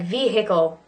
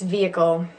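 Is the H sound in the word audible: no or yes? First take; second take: yes; no. First: The H sound is clearly pronounced. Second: The H sound is not pronounced. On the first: "Looks like vehicle" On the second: "but really it's vehicle"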